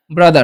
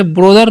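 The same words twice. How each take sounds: First: "ब्रदर" said as "bradar", with an open a in the first syllable; correct pronunciation. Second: "ब्रदर" said as "brodar", with a round o in the first syllable; wrong pronunciation. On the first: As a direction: model the right "ब्रदर" as "bradar". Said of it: "क्या पढ़ना है". (सही उच्चारण, "ब्रदर" को "ब्रदर" (ब्रा-दर) बोलना) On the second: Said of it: "इसे ब्रदर नहीं पढ़ना है". (गलत उच्चारण, "ब्रदर" को "ब्रोदर" बोलना) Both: Shown as a demonstration.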